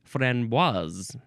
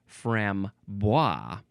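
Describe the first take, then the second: First: The word ends with an audible S sound. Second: The word ends without an S sound. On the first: The speaker calls it right. "You do actually pronounce the S" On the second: The speaker calls it wrong. "I always pronounced it frambois because it seemed like the proper French way"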